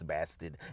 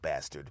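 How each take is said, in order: First: It is said in an East Coast accent. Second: It is said in a neutral accent. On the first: "because I say it with an East Coast accent" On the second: "and not bastard"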